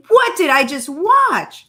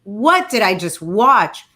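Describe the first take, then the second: First: Higher, incredulous repeat; stunned, pitched-up disbelief. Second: Said in the usual way. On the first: Real, not acted. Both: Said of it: "can we just talk about it".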